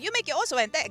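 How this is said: It is said in an imitated Chinese accent.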